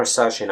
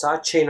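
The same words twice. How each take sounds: First: "Sachin" said with a soft sh in the middle. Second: "Sachin" said with a ch sound in the middle. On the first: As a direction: say Sachin as "SASH-in". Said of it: "I'm not really sure whether". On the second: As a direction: say Sachin as "SATCH-in". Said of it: "your name is pronounced". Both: Shown as a demonstration.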